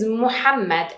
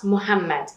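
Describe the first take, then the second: First: The h sound is heavy and breathy. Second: The h sound is soft and light. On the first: The speaker calls it right. "it is Muhammad" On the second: The speaker calls it wrong. "and not Muhammad"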